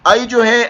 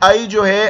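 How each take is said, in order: No difference in how they are said.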